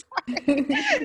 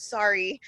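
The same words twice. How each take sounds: First: High, giggly apology; laughing sorry. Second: Said in the usual way. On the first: Retold or imitated. Imitating the mom apologizing to the nanny, laughing. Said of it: "She turns and looks at me and says". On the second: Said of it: "and then she goes".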